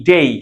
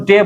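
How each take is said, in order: First: ডেই with a clear ei glide at the end; correct pronunciation. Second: ডে said short, like day without the glide; the common wrong ডে, clipped; wrong pronunciation. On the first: Teacher models the right sound: ডেই with full glide. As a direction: stretch ডেই so the ই is heard. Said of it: "উচ্চারণ হবে এই". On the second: Teacher shows the wrong way: ডে, short and clipped. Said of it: "এটা আমাদের ভুল উচ্চারণ". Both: Shown as a demonstration.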